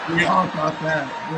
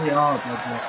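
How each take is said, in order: First: Slow, louder call-out; stretched loud agreement; loud slow declaration. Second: Said in the usual way. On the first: Shown as a demonstration. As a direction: boom it out slowly.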